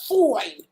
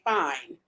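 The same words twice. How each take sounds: First: The word is drawn out with heavy emphasis. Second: The word is said flatly without extra emphasis. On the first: The speaker calls it right. "That's how you gotta say it" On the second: The speaker calls it wrong. "You can't say fine"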